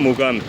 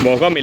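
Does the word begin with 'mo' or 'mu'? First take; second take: mu; mo. First: The word begins with the sound 'mu'. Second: The word begins with the sound 'mo'. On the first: The speaker calls it right. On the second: The speaker calls it wrong.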